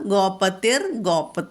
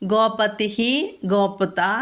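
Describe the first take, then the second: First: The first word ends in an r sound. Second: The first word ends in a breathy h sound. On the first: The words are joined in recitation. "ഇതിൽ രേഭം വരുന്നുള്ളൂ" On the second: The words are split apart. "പദച്ഛേദങ്ങൾ"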